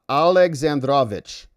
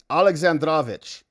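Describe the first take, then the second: The two takes are said the same way.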